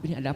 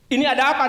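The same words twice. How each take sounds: First: It is said softly and politely. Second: It is said sharply with a high pitch. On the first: A calm, courteous question. "bisa nggak bilangnya lebih pelan?" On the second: A reflexive attempt to intimidate. "hentakannya nadanya tinggi"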